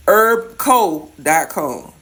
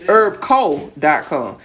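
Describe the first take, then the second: First: Herb co dot com read slowly as herb co dot com; slow careful spelling of Herb co dot com; wrong take. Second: Herb co dot com said slowly, stressing herb; slow corrected Herb co dot com; corrected take. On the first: Cook tells viewers where to order, slow careful URL. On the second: Cook corrects the website name for viewers, slow and deliberate. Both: Shown as a demonstration. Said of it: "Nope, said it wrong".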